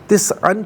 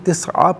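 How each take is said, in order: First: The word ends with an an sound. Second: The word ends with a long a vowel. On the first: The reading continues without stopping. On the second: The reader stops at this word.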